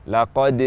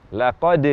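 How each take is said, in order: Both takes have the same delivery.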